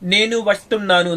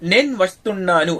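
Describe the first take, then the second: First: The first word keeps both syllables, nenu. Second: The first word is clipped to one syllable, nen. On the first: This is the careful full form. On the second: This is how it is said in everyday speech.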